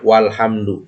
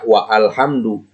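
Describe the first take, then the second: First: Wa links straight into alhamdu without a stop. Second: A glottal stop separates wa from alhamdu. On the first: The speaker calls it right. "Maka dibacanya walhamdu" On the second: The speaker calls it wrong. "maka jangan dibaca wa alhamdu"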